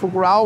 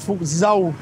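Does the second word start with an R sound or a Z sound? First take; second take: R sound; Z sound. First: The second word starts with an R sound. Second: The second word starts with a Z sound.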